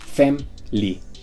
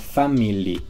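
First: The word is said with two syllables. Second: The word is said with three syllables.

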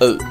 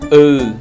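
First: The vowel is held only briefly. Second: The vowel is held for a long time. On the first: "nguyên âm ư ngắn đọc là" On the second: "Nguyên âm ư dài đọc là"

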